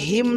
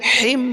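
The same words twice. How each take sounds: First: The 'h' is light and soft. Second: The 'h' is deep and throaty. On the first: The speaker calls it right. "হিম ছোট হা বা গোল হা" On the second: The speaker calls it wrong. "বড় হা দিয়ে বলে"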